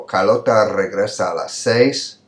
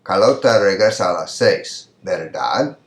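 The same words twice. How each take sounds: First: "Carlota regresa a las seis" with no tag; measured reading, "seis" closing the sentence; example statement. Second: "Carlota regresa a las seis", then "verdad" rising; tag question. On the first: Teacher reading the statement before adding a tag, measured delivery. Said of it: "Look at this example". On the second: Teacher turning the statement into a question, rising tag. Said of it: "there's a little pitch, an up pitch". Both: Shown as a demonstration.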